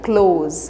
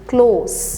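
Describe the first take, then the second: First: The word ends with a buzzing z sound. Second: The word ends with a hissing s sound. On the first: To shut something, like a door. "हमने इजेट का उच्चारण किया" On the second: Being near to something. "एस का ही pronunciation यहाँ पे"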